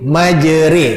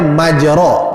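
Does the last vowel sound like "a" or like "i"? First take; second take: i; a. First: The last vowel is an "i" sound. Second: The last vowel is an open "a" sound. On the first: "tak boleh sebut dengan baris bawah" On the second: "asalnya ra ini barisnya atas"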